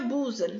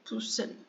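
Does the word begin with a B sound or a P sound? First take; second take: B sound; P sound. First: The word begins with a voiced B sound. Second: The word begins with an unvoiced P sound. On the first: The speaker calls it wrong. "Pulsando não é busan, que a gente tem como costume de falar" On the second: The speaker calls it right. "É pulsando"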